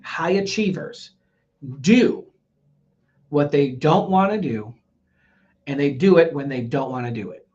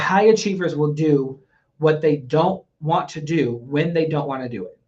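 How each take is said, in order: First: It is said slowly and deliberately. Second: It is said at a normal pace.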